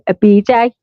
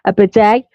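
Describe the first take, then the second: First: It is said with a non-American pronunciation. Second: It is said with an American pronunciation. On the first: "We say" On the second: "Is that the way sh- you Americans say them?"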